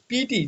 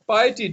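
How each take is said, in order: First: पीटी said as "pee-tee", two syllables; imitating his old schoolboy misreading पीटी; wrong pronunciation. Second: पाइटी said as "pie-tee", opening with pie; correct pronunciation. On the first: Teacher showing students the wrong reading पीटी. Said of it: "तो इसकी pronunciation पीटी नहीं है". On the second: Shown as a demonstration. Teacher giving the class the right reading पाइटी. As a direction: model पाइटी clearly with the pie sound. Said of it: "इसकी pronunciation है पाइटी".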